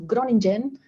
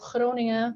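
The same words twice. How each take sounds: First: The name is said with English sounds. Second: The name is said with Dutch sounds. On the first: This is how a newcomer thought it was said. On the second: This is how locals say it.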